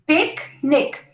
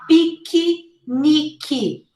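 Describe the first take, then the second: First: It is said with two syllables. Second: It is said with four syllables. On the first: The speaker calls it right. "two syllables" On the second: The speaker calls it wrong. "not picky, nicky, four syllables"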